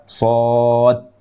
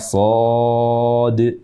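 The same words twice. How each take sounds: First: The final d stops flat without a bounce. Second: The final d is released with a bouncing echo. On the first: The speaker calls it wrong. "huruf dal di akhir yang bersukun ini tidak dikolkolahkan ... Jadi terbaca dengan salah" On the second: The speaker calls it right.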